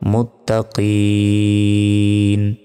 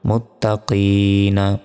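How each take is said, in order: First: Long three-count stretch, ending on a consonant. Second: Short one-count stretch, ending on a vowel. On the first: The reading stops at this word. "যদি এখানে থামি তাহলে এখানে তিন সেকেন্ড টান হবে" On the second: The reading continues without stopping. "এক সেকেন্ড টান হবে"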